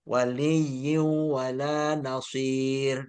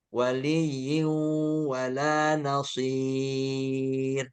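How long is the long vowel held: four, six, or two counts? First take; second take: two counts; four counts. First: The long vowel is held for two counts. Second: The long vowel is held for four counts.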